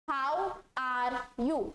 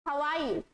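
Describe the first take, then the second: First: Very slow, each word separate; spelled-out reading; read as written. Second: Relaxed spoken "are" with the r dropped. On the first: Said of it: "इसको कैसे पढ़ेंगे". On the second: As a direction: glide "How are you" with "are" as "ah". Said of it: "आर का pronunciation गायब कर देना". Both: Shown as a demonstration.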